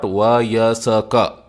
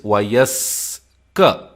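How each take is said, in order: First: A vowel is heard between s and k. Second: The s runs straight into k, no vowel. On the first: The speaker calls it wrong. "It is not Vayasaka" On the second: The speaker calls it right. "It is Vayaska"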